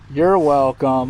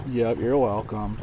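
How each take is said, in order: First: Louder, slow, stretched welcome; loud drawn-out you're welcome. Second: Said in the usual way. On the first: Shown as a demonstration. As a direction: lean into it, drag it out. Thanking the dog after vet.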